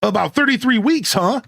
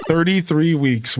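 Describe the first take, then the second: First: High, stretched California surfer lilt on thirty-three weeks; California surfer accent. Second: Said in the usual way. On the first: Acted. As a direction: tease like a laid-back California dude. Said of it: "This is how I would talk if I went to California". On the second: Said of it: "repeats the phrase in own voice".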